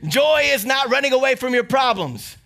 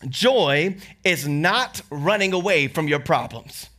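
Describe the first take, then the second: First: It is said loudly. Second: It is said at normal volume.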